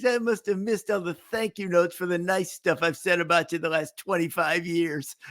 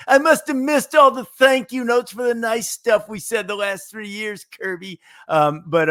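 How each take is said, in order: First: Lightly voiced announcer quote; a hint of the Raftery whine; Bill Raftery impression. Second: High whiny mocking voice, pitched way up; Bill Raftery impression. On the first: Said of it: "He'd say". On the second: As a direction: whine it like a put-out announcer. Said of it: "that was a Bill Raftery impersonation".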